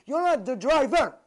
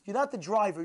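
First: Loud, high, punching NOT and DRIVER; emphatic correction. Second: Said in the usual way. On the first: Real, not acted. Preacher tells listener who is in control, emphatic. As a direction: hammer home NOT the DRIVER. Repeats the point at full force.

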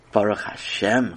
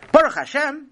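First: Said in the usual way. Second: High, indignant echo as a question; incredulous. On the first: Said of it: "Chaim said". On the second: A narrator's reading. Parent challenging Chaim's thanks, incredulous. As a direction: throw it back in shocked disbelief.

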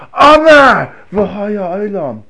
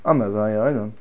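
First: Chanted, high, loud, very slow intoning; chanted, stretch it out with feeling; passionate chant. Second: Said in the usual way. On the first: Shown as a demonstration. Chanted, rabbi modelling prayer for students, slow and loud. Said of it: "Notice the tone of voice". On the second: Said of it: "If you say".

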